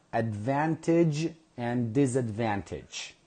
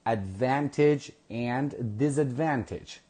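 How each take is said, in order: Both takes have the same delivery.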